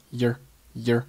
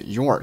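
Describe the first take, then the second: First: "your" reduced to a short, unstressed "yer"; weak form. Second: Said in the usual way. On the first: Shown as a demonstration. Teacher showing learners linked speech, "your" weakened to "yer". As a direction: say "your" weakly as a quick "yer". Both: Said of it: "your是弱读成了".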